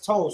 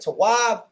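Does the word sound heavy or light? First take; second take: light; heavy. First: The word is said lightly and softly. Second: The word is said heavily and forcefully. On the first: This is how outsiders say it. "they say it like this, told ... that sounds effeminate" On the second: This is the original way of saying it. "it's heavy"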